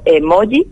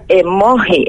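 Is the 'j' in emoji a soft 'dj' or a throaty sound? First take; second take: dj; throaty. First: The j is a soft dj sound. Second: The j is a harsh throaty sound. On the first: The speaker calls it right. "me van a permitir que lo diga como emoji" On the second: The speaker calls it wrong. "yo diría emoji, entonces suena un poco raro"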